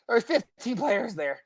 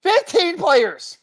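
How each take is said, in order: First: Said in the usual way. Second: FIFTEEN PLAYERS high, slow and hammered; emphatic repeat. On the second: Real, not acted. Host driving home the injury count to co-host, FIFTEEN PLAYERS slow and emphatic. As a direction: draw out "Fifteen players" at a high pitch for weight.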